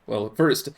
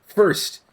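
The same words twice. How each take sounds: First: Said in the usual way. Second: First said higher and firmer; first, with emphasis; stress on first. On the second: Shown as a demonstration. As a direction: correct yourself, hitting first.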